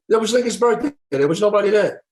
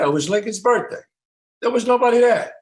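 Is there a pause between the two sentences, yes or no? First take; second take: no; yes. First: Both sentences run together without a pause. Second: There is a pause before the second sentence.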